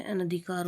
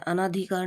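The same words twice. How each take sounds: First: Said in the usual way. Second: अनाधिकार with long second 'aa'; mispronounced अनाधिकार. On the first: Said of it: "अनधिकार होता है". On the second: Shown as a demonstration. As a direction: say अनाधिकार as a-NAA-dhi-kaar. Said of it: "नहीं होता है". (अनाधिकार में 'ना' लंबा)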